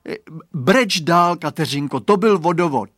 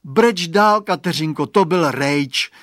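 First: Put-on a little boy urging his friend to keep crying; coaxing boy. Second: Put-on boy's voice, higher and louder, slow fed-up drag on "to byl rejč"; fed up that it was only a turnip; disgusted. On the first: Boy coaxes lost friend to keep crying, higher voice. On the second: Boy disgusted at finding a turnip, higher and slow. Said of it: "řekl znechuceně Radovan".

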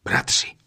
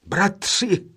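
First: Breathy, hushed first Bratři; Bratři almost whispered in wonder; hushed call. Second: Bratři called out joyfully; joyful cry. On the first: Eldest brother noticing the ring, hushed Bratři. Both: A narrator's reading. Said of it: "vzkřikl radostně nejstarší".

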